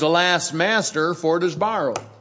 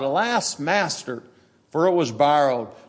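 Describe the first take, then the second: First: It is said calmly, without emotion. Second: It is cried out in distress and horror.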